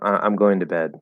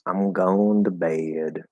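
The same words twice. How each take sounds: First: It is said in a plain, everyday accent. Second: It is said with a Southern-sounding accent. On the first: "Instead of saying" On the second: "Sounds kind of like more like a southern accent"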